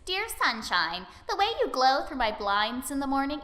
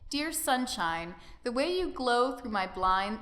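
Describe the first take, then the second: First: It is read in an imitation of Sayori's voice. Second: It is read in his normal voice.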